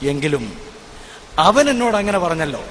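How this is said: The stress falls on the word അവൻ. The surprise is about who said it. "അവൻ എന്നുള്ള ഭാഗത്ത് ഞാൻ സ്ട്രെസ് ചെയ്തുകൊണ്ട്"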